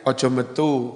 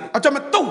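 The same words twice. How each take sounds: First: It is said in a low, gentle tone. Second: It is said in a high, angry tone. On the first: The prohibition is only discouraged, not forbidden. "Atau dengan nada landai?" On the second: The prohibition is strictly forbidden. "kalau Nabi melarang dengan nada tinggi"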